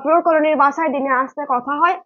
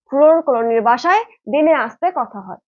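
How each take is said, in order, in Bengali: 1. এটি খুব দ্রুত, তাড়াহুড়ো করে বলা হয়েছে। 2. এটি স্বাভাবিক, ধীরস্থির গতিতে বলা হয়েছে।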